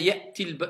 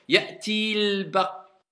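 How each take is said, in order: First: The vowel before the article is kept short. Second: The vowel before the article is held long. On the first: The speaker calls it right. "je vais dire ya'til ba tout de suite" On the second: The speaker calls it wrong. "ça fait bizarre si tu veux le faire"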